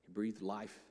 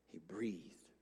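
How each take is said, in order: First: Said in the usual way. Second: Breathy unvoiced whisper, much softer; whispered breath. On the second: Shown as a demonstration. Pastor showing God's breath, whispered softly. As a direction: breathe the words out like air. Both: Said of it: "He breathed into them".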